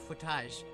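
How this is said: The word is pronounced with a French-sounding ending. "footage is definitely like a French word"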